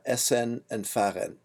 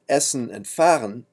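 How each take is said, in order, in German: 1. Das -en am Ende hat ein volles, klares e. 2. Das -en am Ende ist reduziert, ohne klaren Vokal. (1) "not essen and fahren" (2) "are pronounced essen and fahren"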